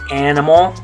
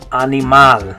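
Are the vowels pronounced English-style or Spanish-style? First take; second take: English; Spanish. First: The vowels have English vowel sounds. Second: The vowels are clear Spanish a, i, a. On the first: "So in English we say" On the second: "In Spanish, you're going to say"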